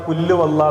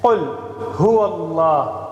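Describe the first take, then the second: First: The h sound after qul is dropped. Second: The h sound after qul is clearly pronounced. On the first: The speaker calls it wrong. "അപ്പൊ അവിടുത്തെ ഹ നഷ്ടപ്പെട്ടു പോയി" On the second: The speaker calls it right. "ഖുൽ ഹുവല്ലാഹ് എന്നതിന് പകരമാണ്"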